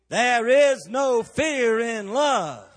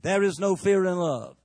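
First: It is said louder and with more force. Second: It is said at a normal, moderate strength.

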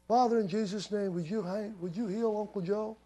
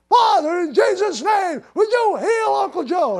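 First: The prayer is spoken at a low volume. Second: The prayer is spoken at a raised volume. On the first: The speaker calls it wrong. "instead of saying" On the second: The speaker calls it right. "just raise the volume"

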